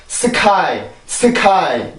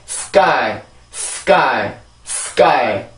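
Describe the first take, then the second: First: "sky" as seu-kai with aspirated k; wrong pronunciation. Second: "sky" with tense, unaspirated k straight after s; correct pronunciation. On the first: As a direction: say "sky" with a vowel after s and a puff on k. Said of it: "이게 아니라". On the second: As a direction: model "sky" as one falling syllable, hard k. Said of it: "이렇게 발음이 되고요". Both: Shown as a demonstration.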